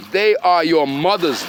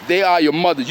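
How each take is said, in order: First: They said slow with weight on "they"; slow, heavy stress on "They". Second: "are" punched as the key word; stress on are. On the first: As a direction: lean on "They", draw the line out slowly. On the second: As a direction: insist with "are". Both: Real, not acted.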